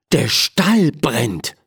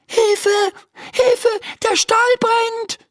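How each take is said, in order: First: Said in the usual way. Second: High-pitched cry for help; alarmed calling out. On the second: Acted. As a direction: call the alarm in a much higher voice. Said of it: "ruft sie". (hoher, alarmierter Hilferuf)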